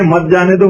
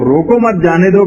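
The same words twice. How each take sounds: First: "مت جانے دو" grouped as one phrase, set apart from روکو; pause after روکو. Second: "روکو مت" grouped together, then "جانے دو"; phrase it as "روکو مت", then "جانے دو"; pause after مت. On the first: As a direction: break off after روکو, then join مت to جانے دو. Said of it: "روکو پہ روک دیں". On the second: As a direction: join مت to روکو, break before جانے دو. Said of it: "معنی ہو جائیں گے کہ اس کو جانے دو". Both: Shown as a demonstration.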